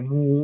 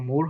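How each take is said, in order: First: The final r sound is dropped. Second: The final r sound is pronounced. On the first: The speaker calls it right. "হবে মু" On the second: The speaker calls it wrong. "এটা মুর হবে না"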